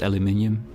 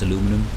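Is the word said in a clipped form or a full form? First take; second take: full; clipped. First: The word is said in a longer, full form. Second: The word is said in a shorter, clipped form. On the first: The speaker is making an effort. "sometimes I'm not lazy" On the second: The speaker is being lazy. "Sometimes I'm lazy"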